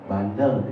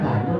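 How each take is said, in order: First: It is said in a full, ordinary voice. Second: It is said in a very thin, hushed voice. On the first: The person is only a little naughty. "itu belum terlalu bandel tuh" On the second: The person is very naughty. "itu makin tipis suara gitu"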